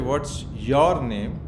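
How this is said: The stress falls on the word your. The focus is on the other person. "you are putting a lot of emphasis on the other person"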